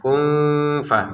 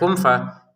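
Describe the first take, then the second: First: The n is obscured with a nasal hum. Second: The n sounds like a short plain m. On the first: The speaker calls it right. "kita baca samar" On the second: The speaker calls it wrong. "jangan sekedar kum fa, kum fa gitu. Kurang"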